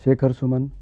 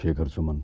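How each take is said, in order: First: The voice is pitched higher. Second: The voice is pitched lower. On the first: "अभी ये मैं इस सुर में बोल रहा हूँ ना" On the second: "अब थोड़ा-सा सुर नीचे गया"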